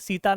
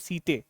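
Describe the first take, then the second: First: The word ends in an 'ah' vowel sound. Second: The word ends in an 'ay' vowel sound. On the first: The speaker calls it wrong. "सीता नहीं" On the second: The speaker calls it right. "सीते बोलते हैं"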